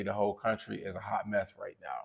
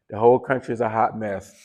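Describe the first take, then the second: First: Said in the usual way. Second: "whole" pushed harder and louder, falling at the end; emphatic repeat. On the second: Real, not acted. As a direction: lean into "whole country" to hammer the point home.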